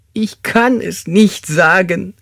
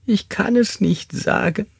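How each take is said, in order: First: High, drawn-out, forceful wail; anguished sobbing. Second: High, slow, tearful refusal; sobbing. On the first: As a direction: wail the refusal slowly, putting more force into it. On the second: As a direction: sob it out, pitch right up. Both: Acted. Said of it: "schluchzte er".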